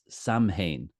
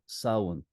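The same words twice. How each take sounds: First: The m sound is pronounced, following the spelling. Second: The m sound is dropped, like 'sow-in'. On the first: This is how many people say it today. "so many contemporary people will pronounce it Samhain" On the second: This is the traditional way the word was said. "we grew up calling it Samhain"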